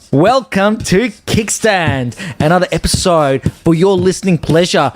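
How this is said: It is said in an excited, lively way.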